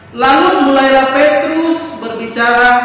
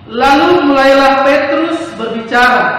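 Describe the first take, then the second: The two takes are said the same way.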